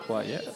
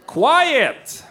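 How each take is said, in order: First: Quiet said low and soft, as it means. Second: Loud ironic call. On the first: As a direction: drop to a hush on Quiet. Repeats quiet softly. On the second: Host says word quiet loudly. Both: Shown as a demonstration.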